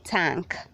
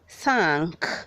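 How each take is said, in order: First: The word begins without a TH sound. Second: The word begins with a TH sound. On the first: The speaker calls it wrong. "don't say thank" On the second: The speaker calls it right. "Say thank, Be conscious of your T H"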